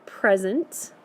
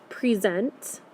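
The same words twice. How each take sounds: First: "present" said PREZ-ent, weight up front; stress on first syllable. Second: "present" said pre-ZENT, long second syllable; stress on second syllable. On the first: Teacher offering the other reading, stressed PREZ-ent. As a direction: noun form "present", PREZ-unt. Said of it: "is how we should say it". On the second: Teacher reading out the first word, stressed pre-ZENT. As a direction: verb form "present", pree-ZENT. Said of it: "saying that ending part of that word". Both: Shown as a demonstration.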